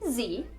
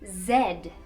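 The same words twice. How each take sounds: First: The letter is said the American way. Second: The letter is said the local way. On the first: "in America we say our A B Cs, and the letter Z we say Z" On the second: "but here it's Z"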